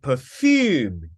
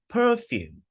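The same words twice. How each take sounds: First: The stress is on the second syllable. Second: The stress is on the first syllable. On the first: It means to give out a scent. "And perfume is the verb" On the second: It names a scented substance. "The noun is stressed on the first syllable"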